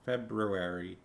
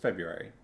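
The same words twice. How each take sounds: First: The first R sound is pronounced. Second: The first R sound is dropped. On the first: "I know the R is there" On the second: "nobody pronounces the R, right? It's just February"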